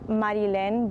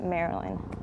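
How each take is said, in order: First: The name is pronounced with Spanish sounds. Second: The name is pronounced with English sounds. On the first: This is the original pronunciation of the name. "so it's in Spanish" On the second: This is how people locally read the name. "but here everyone just reads it"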